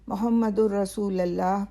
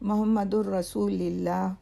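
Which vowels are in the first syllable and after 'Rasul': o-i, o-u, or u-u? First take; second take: o-u; o-i. First: It begins with 'mo' and has 'lullah'. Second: It begins with 'mo' and has 'lillah'. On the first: "बहुत से लोग मोहम्मदुर रसूलुल्लाह पढ़ते हैं" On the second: "दोनों तलफ़ुज़ गलत हैं"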